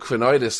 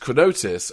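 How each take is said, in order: First: The middle syllable has an 'i' vowel. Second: The middle syllable has an 'o' vowel. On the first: The speaker calls it wrong. "you're saying Chronitis like it's some kind of, like, chronic illness" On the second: The speaker calls it right. "it's Chronotis"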